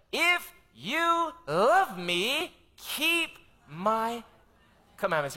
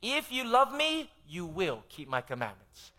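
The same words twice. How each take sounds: First: If you love me drawn out slow and high, then keep my commandments; solemn drawn-out scripture quote; slow emphatic quote. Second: The emphatic Greek reading; more emphatic. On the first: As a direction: stretch love slowly, pause before commandments. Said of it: "it's like this". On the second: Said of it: "it's even more emphatic". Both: Shown as a demonstration.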